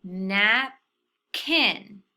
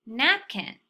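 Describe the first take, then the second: First: Napkin drawn out slowly, syllables eased together; slow blended napkin. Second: Said in the usual way. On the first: Shown as a demonstration. Teacher slowly blending napkin for students. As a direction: stretch napkin as you blend the parts. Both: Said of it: "let's try to put both of those syllables together".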